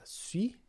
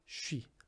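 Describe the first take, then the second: First: It begins with a plain 's' sound. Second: It begins with a 'sh' sound. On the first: The speaker calls it wrong. "algumas pessoas pensariam que seria uh, sui, sui, mas não" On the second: The speaker calls it right. "a gente vai pronunciar shi"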